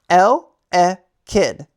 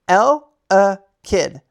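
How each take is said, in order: The two takes are said the same way.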